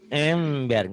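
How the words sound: It is said with a nasal, blocked-nose voice. "Orang bindeng ngomong ember"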